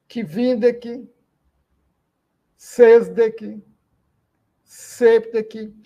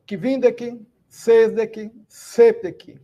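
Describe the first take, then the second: First: Said in the usual way. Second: Kvindec, sesdec, septec each stressed on the second-to-last syllable: KVIN-dec, SES-dec, SEP-tec; penultimate stress. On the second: Shown as a demonstration. Teacher showing the class where the stress falls, each word stressed on its penultimate syllable. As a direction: lean on the first beat of kvindec, sesdec, septec. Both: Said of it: "todas as palavras são paroxítonos".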